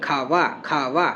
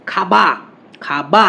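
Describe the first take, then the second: First: "খাওয়া" low and soft, teeth touching lip for ওয়া; labiodental glide. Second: "খাবা" with both lips shut on বা; bilabial b. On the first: Teacher showing tooth-and-lip sound, soft "খাওয়া". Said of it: "আমরা দন্তষ্ঠ উচ্চারণ করি". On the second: Teacher showing the lip sound, plosive b in "খাবা". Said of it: "মানে ওষ্ঠধ্বনি". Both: Shown as a demonstration.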